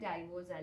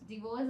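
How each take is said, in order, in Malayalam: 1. ആദ്യ അക്ഷരത്തിൽ 'dye' സ്വരം ഉണ്ട്. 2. ആദ്യ അക്ഷരത്തിൽ ചെറിയ 'di' സ്വരം ഉണ്ട്. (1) "ഡൈവോഴ്സ് അല്ല" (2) "ഡിവോഴ്സ് ആണ്"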